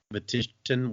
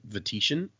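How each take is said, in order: First: "Vatition" with a hard t, vuh-TIT-un; second-guessed pronunciation. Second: "Vatition" with a sh sound, vuh-TISH-un; uncertain pronunciation. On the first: Second try at the place name, "Vatition" with hard t. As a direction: say "Vatition" with t replacing the sh. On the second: Unsure of the place name, "Vatition" with a soft sh. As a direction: say "Vatition" as vuh-TEE-shun. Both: Shown as a demonstration.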